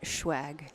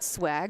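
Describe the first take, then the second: First: The word begins with a sh sound. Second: The word begins with a plain s sound. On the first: "or is it schwag?" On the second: "is it swag"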